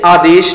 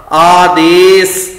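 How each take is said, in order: First: ਆਦੇਸ਼ quicker, ending in sh; final sh sound. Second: ਆਦੇਸ slow and loud, ending in s; plain final s. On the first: Teacher warns against this reading, ਆਦੇਸ਼ with sh. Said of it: "ਇੱਥੇ ਆਦੇਸ਼ ਨਹੀਂ ਕਹਿਣਾ". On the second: Teacher models the right reading, ਆਦੇਸ with s. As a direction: hold the vowels of ਆਦੇਸ and finish on s. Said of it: "ਸੱਸੇ ਪੈਰ ਬਿੰਦੀ ਨਹੀਂ ਲੱਗੇਗੀ". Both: Shown as a demonstration.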